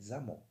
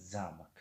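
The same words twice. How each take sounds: First: Замок with the О stressed, za-MOK. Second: Замк with the first syllable stressed and the О swallowed, ZAMK. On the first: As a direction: say Замок leaning on the second syllable О. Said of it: "Оро мо баландтар мехонем". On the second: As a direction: say Замк as ZAMK, hitting the А and dropping the О. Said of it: "Мо инро замк мехонем". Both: Shown as a demonstration.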